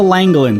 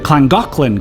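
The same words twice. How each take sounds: First: The double L is said as plain L. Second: The double L is said as Welsh LL. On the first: The speaker calls it wrong. "At least that's how I read it" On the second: The speaker calls it right. "the Welsh pronounce the double L's as cla, so it's actually pronounced"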